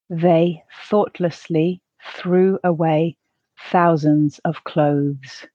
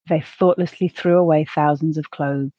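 First: The sentence is said slowly. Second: The sentence is said at a natural pace. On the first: "the first time slowly" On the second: "the second at a more natural pace"

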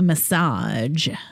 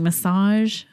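First: The final consonant is a hard j sound. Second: The final consonant is a soft zh sound. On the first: The speaker calls it wrong. "It's not like giraffe G" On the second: The speaker calls it right. "It's a zh instead of a"

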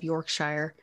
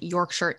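First: The last syllable sounds like 'shire'. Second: The last syllable sounds like 'sher'. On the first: The speaker calls it wrong. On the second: The speaker calls it right.

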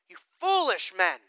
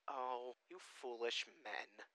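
First: It is said forcefully, as an exclamation. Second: It is said gently and softly.

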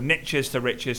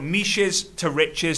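First: Niches is said rhyming with riches. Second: Niches is said without rhyming with riches. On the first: The speaker calls it right. "sounds better" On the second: The speaker calls it wrong. "doesn't sound so good"

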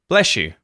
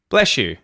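First: The s and y merge into an sh sound. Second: The same.

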